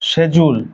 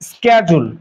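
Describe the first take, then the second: First: It starts with 'sh' and has a 'j' sound. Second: It starts with 'sk' and has a 'j' sound. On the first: British people say it this way. "ব্রিটিশরা এটাকে বলে শেজুল" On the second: American people say it this way. "আমেরিকানরা আবার এটাকে বলে স্ক্যাজুল"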